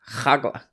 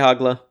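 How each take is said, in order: First: It begins with a rough, throaty kh sound. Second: It begins with a soft, plain h sound.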